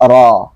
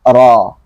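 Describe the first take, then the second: First: The vowel is thick with open, unrounded lips. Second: The same.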